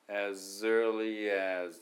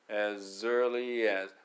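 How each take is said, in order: First: "as early as" joined into one flowing word, slow; linked together. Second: "As early as" run together as one word, slow; linked together. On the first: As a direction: stick "as early as" together with no breaks. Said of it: "くっつけますね". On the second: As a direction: glide "As early as" smoothly into one stream. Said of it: "このearlyってなるっていうところがポイントです". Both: Shown as a demonstration.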